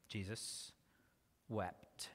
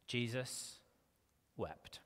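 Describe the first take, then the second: First: Hushed solemn repeat. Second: Hushed solemn reading. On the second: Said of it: "then we read verse thirty-five". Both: Shown as a demonstration.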